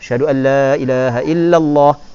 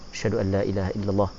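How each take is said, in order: First: It is said loudly, in a raised voice. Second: It is said softly, in a low voice.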